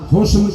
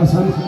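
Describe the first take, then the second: First: The first vowel is a 'u' sound. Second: The first vowel is an 'a' sound. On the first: "पेश पढ़ दो तो भी ठीक है" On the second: "ज़बर पढ़ दो तो भी ठीक है"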